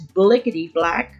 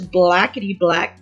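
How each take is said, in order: First: The first word has an 'i' vowel. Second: The first word has an 'a' vowel. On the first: The speaker calls it right. "but it's" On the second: The speaker calls it wrong. "I've been mispronouncing that. I thought it was"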